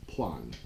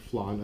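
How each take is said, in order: First: It begins with a P sound. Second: It begins with an F sound. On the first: "with a thick Filipino accent, uh, it's plan, okay? P L A N" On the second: "so you pronounce it flan, F L A N"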